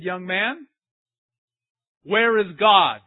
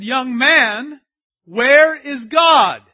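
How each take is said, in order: First: Mild priest. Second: Slow, much louder and higher shout; a priest shouting his question at the boy; booming priest. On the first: First take of priest's question. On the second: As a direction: roar the question slowly. Second take, shouted. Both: Retold or imitated.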